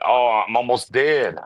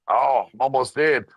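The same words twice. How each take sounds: First: Slow hammed-up groan of a dying man; mock dying. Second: Hammed-up strained dying voice; mock dying, more strained. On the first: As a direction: play it like a melodramatic death. Mocking a dying character. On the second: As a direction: squeeze it out like the last breath. Repeat of the mock dying line.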